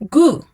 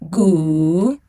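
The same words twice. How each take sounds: First: The pitch falls sharply from high. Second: The pitch dips low, then rises.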